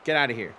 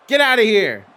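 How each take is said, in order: First: Said in the usual way. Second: Much higher and louder, playful outrage; mock outraged shout. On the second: Shown as a demonstration. Streamer timing out a joking chatter, playful loud shout. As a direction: blast it out in fake indignation.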